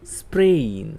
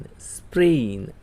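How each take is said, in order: First: Said in the usual way. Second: સ્પ્રેઇન said slowly as English sprain; teacher slowing down સ્પ્રેઇન for students; slow model word. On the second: Shown as a demonstration. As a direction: draw સ્પ્રેઇન out for the class. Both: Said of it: "બોલો".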